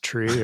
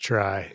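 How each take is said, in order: First: The vowel sounds like the one in 'see'. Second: The vowel sounds like the one in 'sky'. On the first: "is it pronounced tree" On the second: "or is it pronounced try?"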